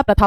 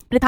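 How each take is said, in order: First: प्रथा said "pratha", with short 'a'; correct pronunciation. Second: प्रथा said "pritha", with 'i' after pr; wrong pronunciation. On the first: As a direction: say प्रथा as "PRA-tha". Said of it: "प्रथा होता है". (प्रथा में 'प्र' पर छोटा अ) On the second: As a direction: say प्रथा as "PRI-tha". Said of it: "प्रथा नहीं होता". (प्रथा को 'प्रिथा' बोलना) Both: Shown as a demonstration.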